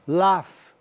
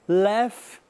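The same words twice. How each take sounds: First: British laugh. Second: American laugh. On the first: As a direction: Laugh with a broad British a, like "lahf". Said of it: "britânico". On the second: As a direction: Laugh with a flat American a, like "lef". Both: Shown as a demonstration.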